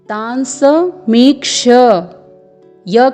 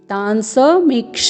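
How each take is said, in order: First: The word ends with a 'kshya' sound. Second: The word ends with a 'ksha' sound. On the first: The speaker calls it right. "यहाँ पर आपको तांस मीक्ष य का उच्चारण करना है" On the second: The speaker calls it wrong. "न कि तांस मीक्ष"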